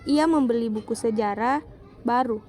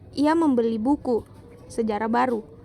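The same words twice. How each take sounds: First: There is a pause right after sejarah. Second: There is a pause right after buku. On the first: The book is what is new. "Pada kalimat kedua terdapat di buku sejarah dan baru" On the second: The history is what is new. "Pemberian jeda pada kalimat pertama terdapat di buku dan sejarah baru"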